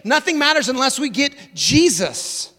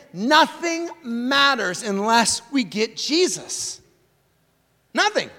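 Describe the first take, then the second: First: Said in the usual way. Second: Slow, deliberate, every word weighted, "Nothing" hit hardest; "Nothing matters unless we get Jesus" spelled out slowly, leaning hard on "Nothing"; slow emphatic statement. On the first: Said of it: "key line restated at normal pace". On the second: Shown as a demonstration. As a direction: lay the line down slowly so it sinks in. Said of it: "key line stated slowly".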